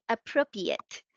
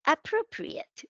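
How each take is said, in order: First: "appropriate" without its second r, uh-PRO-pee-it; childlike slip, uh-PRO-pee-it for "appropriate"; old mispronunciation. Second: "appropriate" with both r sounds, uh-PRO-pree-it; careful, high-pitched uh-PRO-pree-it for "appropriate"; corrected pronunciation. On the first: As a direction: drop the r from the "-priate" of "appropriate". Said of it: "which I used to say". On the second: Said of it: "have corrected my pronunciation of". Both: Shown as a demonstration.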